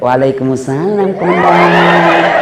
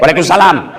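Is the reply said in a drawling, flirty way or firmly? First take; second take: drawling; firm. First: It is said in a drawling, flirty way. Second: It is said in a firm, curt way.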